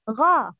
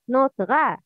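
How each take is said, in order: First: The syllable is said heavy and full. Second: The syllable is said light and thin. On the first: The speaker calls it right. "Heavy letters have heavy sounds" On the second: The speaker calls it wrong.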